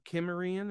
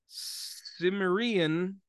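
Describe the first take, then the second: First: The word begins with a hard K sound. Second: The word begins with a soft S sound.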